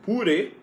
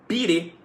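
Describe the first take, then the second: First: The first vowel sounds like 'u'. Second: The first vowel sounds like 'i'. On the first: "ele vai jogar pro som do U e você vai ouvir um purê" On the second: "ele vai jogar pro som do I e você vai ouvir um pirê"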